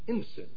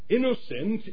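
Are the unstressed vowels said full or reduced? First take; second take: reduced; full. First: The unstressed vowels are reduced to schwa. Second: The unstressed vowels keep their full sound. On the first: The speaker calls it wrong. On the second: The speaker calls it right.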